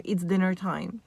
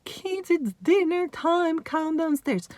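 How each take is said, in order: First: Said in the usual way. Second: Calling out. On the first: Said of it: "go down in volume". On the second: Acted. Mum calling the kids downstairs for dinner, high restrained call-out. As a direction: sing out higher, as if calling upstairs. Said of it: "no way I could raise my voice".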